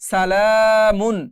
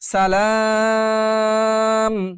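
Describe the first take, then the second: First: The word ends in -mun with a short vowel. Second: The word ends in -m with a stretched vowel. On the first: The word is read without stopping. "মিম দুই পেশ মুন" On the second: The reader stops on this word. "কিন্তু থামলে সালাম"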